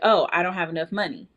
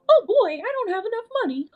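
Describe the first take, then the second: First: It is said in a normal voice. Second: It is said in a Mickey Mouse voice.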